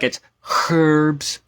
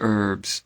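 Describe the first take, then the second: First: The H at the start is pronounced. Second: The H at the start is silent. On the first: This is how British speakers say it. "I've had British people be like" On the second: This is how the speaker's own community says it. "We don't pronounce the H"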